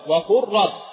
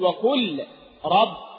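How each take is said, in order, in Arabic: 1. تُدغم اللام في صوت راء مشدد. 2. تُنطق اللام بوضوح قبل الراء. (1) "إنما أدغم اللام في الراء هكذا" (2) "لا أقول وقل رب، لا"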